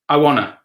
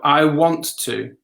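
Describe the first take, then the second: First: The words run together quickly into a reduced form. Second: Each word is said clearly and fully.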